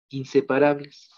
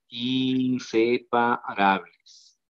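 First: Said in the usual way. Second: Inseparables stretched out very slowly; alargado, recalcado. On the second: Shown as a demonstration. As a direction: draw out every syllable of inseparables. Maestro recalca la palabra clave. (inseparables, muy lento, sílaba por sílaba)

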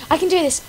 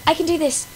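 No difference in how they are said.

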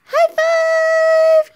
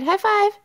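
First: High, loud squealed high five; cheering squeal. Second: Said in the usual way. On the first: Real, not acted. Mother cheering baby's high five, loud high squeal.

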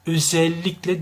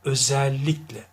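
First: Özellikle with closed e sounds. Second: Özellikle with an open æ. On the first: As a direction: keep the e of Özellikle narrow. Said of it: "değildir bakınız". (kapalı e ile yanlış Özellikle) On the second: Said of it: "açıktır". (açık e ile Özellikle) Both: Shown as a demonstration.

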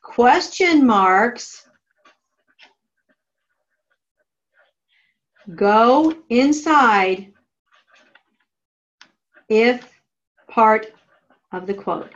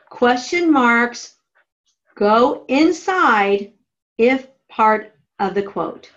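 First: Slow, word-by-word dictation; dictating. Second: Dictating. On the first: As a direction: spell it out slowly for note-taking. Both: Shown as a demonstration. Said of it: "Draw an arrow to your margin that says".

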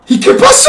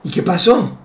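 First: ¿Y qué pasó? gritado muy agudo y fuerte; grito agudo. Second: Said in the usual way. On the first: Retold or imitated. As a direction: grita la pregunta de golpe. Primo pregunta a gritos. (grito agudísimo y fuerte)

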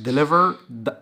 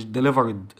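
First: "delivered" as de-li-verd, loud; correct joined ending. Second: "delivered" wrongly said as de-li-ver-id; wrong extra syllable. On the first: Teacher modelling the past ending, joined D. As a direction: join the D onto "delivered" with no "id". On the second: Teacher showing the mistake to avoid, wrong extra syllable. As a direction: tack a separate "id" onto "delivered". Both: Shown as a demonstration. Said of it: "مش delivered".

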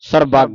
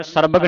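First: ਸਰਬੱਗ with a weighty second syllable and held g; heavy pronunciation. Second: ਸਰਬਗ with light, short "bag"; wrong reading. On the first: Teacher models the heavy reading, ਸਰਬੱਗ weighted on "bagg". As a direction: lean hard on the "bagg" of ਸਰਬੱਗ. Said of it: "ਇਸ ਨੂੰ ਭਾਰਾ ਉਚਾਰਨ ਕਰਨਾ ਹੈ". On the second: Teacher shows the reading to avoid, ਸਰਬਗ with short "bag". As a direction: say ਸਰਬਗ without weight on the final syllable. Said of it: "ਸਰਬਗ ਨਹੀਂ ਪੜ੍ਹਨਾ". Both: Shown as a demonstration.

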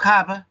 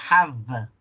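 First: "have" ending in a B with both lips; Spanish-style B closing "have". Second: "have" ending in a buzzing v; drawn-out v at the end of "have"; correct English V. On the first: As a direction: mispronounce "have" as "hab". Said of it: "donde los dos labios tocan". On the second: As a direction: say "have" with upper teeth on lower lip. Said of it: "El diente de arriba toca el labio de abajo". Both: Shown as a demonstration.

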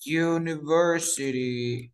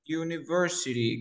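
First: University said slowly, "you-niversity", English style; teacher modelling University slowly; slow model word. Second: Said in the usual way. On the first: Shown as a demonstration. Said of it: "Siguiente palabra". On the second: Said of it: "¿Cómo se dice?".

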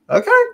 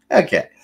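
First: Okay? shot way up in a high incredulous rise; sarcastic okay?. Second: Said in the usual way. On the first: Real, not acted. Ranting at viewers about school politics, Okay? flung up high and incredulous. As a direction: make the Okay? leap up high, mock disbelief.

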